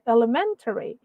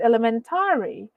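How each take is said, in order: First: The stress falls on the syllable 'men'. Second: The stress falls on a syllable other than 'men'. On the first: The speaker calls it right. "The stress is supposed to be on the men" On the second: The speaker calls it wrong. "that's already considered as mispronounced words"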